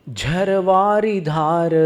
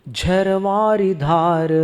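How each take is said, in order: No difference in how they are said.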